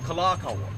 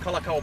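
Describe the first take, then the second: First: The name is said with the long vowel. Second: The name is said without the long vowel. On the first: The speaker calls it right. "the Kahako is there" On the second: The speaker calls it wrong. "you didn't go out drinking last night on Kalakaua Boulevard"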